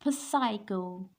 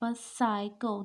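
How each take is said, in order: First: A P sound is pronounced at the start. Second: No P sound is pronounced at the start. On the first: The speaker calls it wrong. "This is not psycho" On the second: The speaker calls it right. "the P is silent here"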